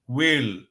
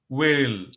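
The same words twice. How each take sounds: No difference in how they are said.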